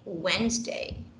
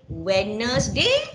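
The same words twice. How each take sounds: First: Some spelled letters are left silent. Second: Every letter is pronounced as it is spelled. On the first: The speaker calls it right. "but we say" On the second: The speaker calls it wrong. "We do not say"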